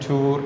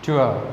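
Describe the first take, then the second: First: The vowel is one long pure oo sound. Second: The vowel glides from oo into uh. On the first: The speaker calls it wrong. "നമ്മൾ സാധാരണ മലയാളത്തിൽ ടൂർ എന്നാണ് പറയുക" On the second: The speaker calls it right. "ഇത് correct pronounce ചെയ്യേണ്ടത് ട്വർ ട്വർ എന്നാണ്"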